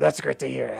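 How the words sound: It is said in a put-on character voice.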